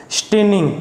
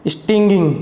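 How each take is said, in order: First: "स्टेनिंग" said as "shtening", with no g sound inside; mistaken pronunciation. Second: "स्टिंगिंग" said as "isting-ging", with the g sounded; corrected pronunciation. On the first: Real, not acted. Teacher misreading a vocabulary word, "स्टेनिंग" said as shtening. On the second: Shown as a demonstration. Teacher correcting own slip, "स्टिंगिंग" said with a sounded middle g. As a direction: say "स्टिंगिंग" with short i and a g inside. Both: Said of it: "इसकी pronunciation ये गलत बोल दी".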